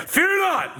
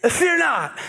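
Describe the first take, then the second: First: Fear not with a higher, firmer push on Fear; more convincing. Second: Timid, unconvincing Fear not; weak first try. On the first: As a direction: punch Fear, commanding. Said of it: "that's more convincing". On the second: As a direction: say it like a nervous speaker. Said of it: "Try that again". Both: Acted.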